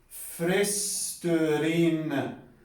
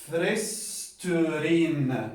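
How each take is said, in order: The two takes are said the same way.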